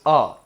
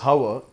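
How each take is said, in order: First: The word begins with a vowel sound. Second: The word begins with an H sound. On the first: The speaker calls it right. "H is silent here" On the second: The speaker calls it wrong. "It is not pronounced as hour"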